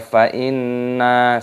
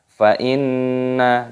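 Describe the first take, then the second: First: The vowel after the double n is long. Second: The vowel after the double n is short. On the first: The speaker calls it wrong. "dibaca fa inna, salah" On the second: The speaker calls it right. "nunnya pendek, jangan dipanjangkan"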